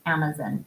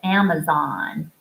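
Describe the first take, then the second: First: Amazon is said with British pronunciation. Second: Amazon is said with American pronunciation. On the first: "I might still get caught saying Amazon" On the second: "instead of Amazon"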